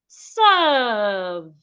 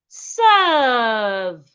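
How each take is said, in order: Both takes have the same delivery.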